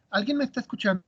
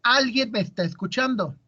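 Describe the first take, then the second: First: "¿Alguien me está escuchando?" as a real question. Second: "¿Alguien me está escuchando?" stated firmly and assuredly, "Alguien" stressed; assured statement tone. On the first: Teacher to class, first tone: asking as a question. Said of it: "eso fue el primer tono". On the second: Teacher to class, second tone: assured statement. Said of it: "Segundo tono". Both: Shown as a demonstration.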